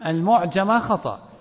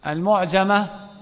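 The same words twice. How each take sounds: First: المعجمة repeated as the mistake, falling; stressing المعجمة to mark it as wrong; quoting the wrong form. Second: المعجمة said with mu-, the student's slip; slowly drawn المعجمة with a wrong initial mu; wrong word. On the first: Shown as a demonstration. Teacher corrects a student's wrong answer. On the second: Real, not acted. Student gives the wrong term to the teacher.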